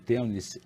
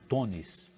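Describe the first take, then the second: First: The first vowel sounds like 'eu'. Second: The first vowel sounds like 'o'.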